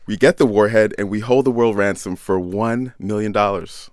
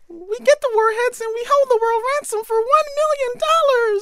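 First: It is said in a normal speaking voice. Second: It is said in a high Minnie Mouse voice.

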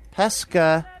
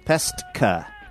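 First: It is said without a t sound before the k. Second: It is said with a t sound before the k. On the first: The speaker calls it wrong. "not Pesca" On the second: The speaker calls it right. "with an S-T-K-A"

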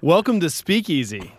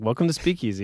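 First: It is said in a cheerful, lively tone. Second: It is said in a flat, low-energy tone. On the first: This is a jovial show opening. "If you want jovial openings" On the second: This is how people really talk. "That's like what people sound like"

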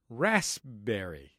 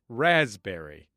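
First: A hard S and a hint of P are heard. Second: A soft Z-like S is heard, with no P. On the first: "using the hard S sound and a hint of the P as it is written" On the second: "the ubiquitous raspberry pronunciation"

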